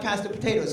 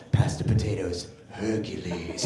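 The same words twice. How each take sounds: First: Said in the usual way. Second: Very deep superhero voice; little boy as Hercules. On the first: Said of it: "My wife would be like". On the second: Retold or imitated. Son at dinner staying Hercules, very deep. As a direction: boom it from the bottom of your range. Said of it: "He's all".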